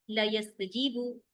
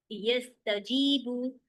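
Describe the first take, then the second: First: ला यस्तजीबु read slowly with the अलिफ dropped; slow ला यस्तजीबु, no long ला; wrong reading. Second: यस्तजीबु stretched very slowly and clearly; drawn-out correct यस्तजीबु; correct reading. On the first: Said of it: "तो मैंने क्या किया". (धीमे, अलिफ छोड़कर ला यस्तजीबु) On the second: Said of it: "ये पढ़ूंगी तो सही है". (बहुत धीरे, साफ़ सही यस्तजीबु) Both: Shown as a demonstration.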